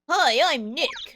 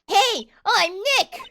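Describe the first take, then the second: First: It is said at a normal, quieter volume. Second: It is said louder, almost shouted.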